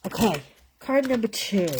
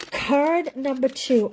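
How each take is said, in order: First: Said in the usual way. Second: Card number two, said higher, louder and slow; proudly spelling out "Card number two" like a show host; emphatic announcement. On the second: Shown as a demonstration.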